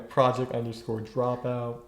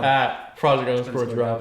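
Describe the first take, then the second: First: The word 'at' is not stressed. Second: The word 'at' is stressed.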